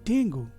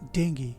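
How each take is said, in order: First: The word ends with an 'oo' sound. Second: The word ends with an 'ee' sound. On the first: The speaker calls it wrong. "क्या ये इस शब्द का सही pronunciation है? नहीं" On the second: The speaker calls it right. "इस शब्द का सही प्रोनाउंसिएशन है डेंगी"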